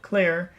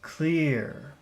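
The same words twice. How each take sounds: First: The word is said plainly without extra emphasis. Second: The word is said with strong, lengthened emphasis. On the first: "Normal clear" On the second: "Focus clear"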